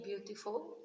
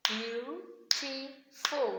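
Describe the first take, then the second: First: Said in the usual way. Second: "Beautiful" very slowly in three separate beats; syllable by syllable. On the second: Shown as a demonstration. Teacher clapping syllables with the class, "Beautiful" broken syllable by syllable. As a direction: clap out "Beautiful", a gap after each syllable. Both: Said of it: "can you clap with me".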